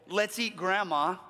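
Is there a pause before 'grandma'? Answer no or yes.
no. The words run together with no pause. Grandma is the food being eaten. "the first one is a designation that grandma is on the menu"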